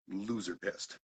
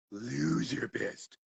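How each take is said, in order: First: Said in the usual way. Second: "Loser pissed" stretched very slowly, higher; slow, exaggerated "Loser pissed"; drawn-out LOSER PISSED. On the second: Shown as a demonstration. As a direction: drag out both words of "Loser pissed" for comic emphasis. Repeats phrase, stretched for effect.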